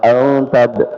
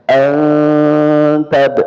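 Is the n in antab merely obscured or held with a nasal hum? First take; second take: obscured; nasal hum. First: The n is obscured without a held nasal hum. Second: The n is held with a nasal hum. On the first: The speaker calls it wrong. "bukan sekedar disamarkan" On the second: The speaker calls it right. "ada dengungannya"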